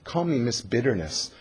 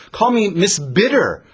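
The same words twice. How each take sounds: First: Said in the usual way. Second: Sharp, bitter. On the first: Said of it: "Naomi is essentially saying". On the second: Acted. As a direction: Call me Miss Bitter said higher, louder and slow, in bitter protest. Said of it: "Naomi is a little sharp".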